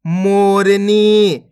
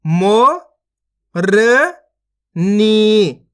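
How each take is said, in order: First: Said in the usual way. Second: मोरनी slowly split into held syllables. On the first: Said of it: "इनको आपस में लाके पढ़ देना है". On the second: Shown as a demonstration. Teacher showing learners how to read मोरनी, syllable by syllable. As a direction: sound out मोरनी with gaps. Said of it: "एक एक अक्षर का उच्चारण करके".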